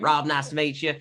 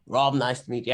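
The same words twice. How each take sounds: First: Put-on fix the accent and say "Rob, nice to meet you" again in character; corrected accent. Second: Put-on a slip into the wrong accent for "Rob, nice to meet you". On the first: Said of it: "Wrong accent entirely". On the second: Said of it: "I went wrong accent".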